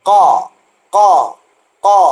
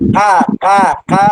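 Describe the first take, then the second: First: The sound is heavy, with rounded, full resonance. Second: The sound is light, with the mouth spread flat. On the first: The speaker calls it right. "അല്പം വായു ഉരുണ്ടാണ് വരിക" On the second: The speaker calls it wrong. "വായ് മലർത്തി വെച്ച് ക ക ക എന്ന് പറയരുത്"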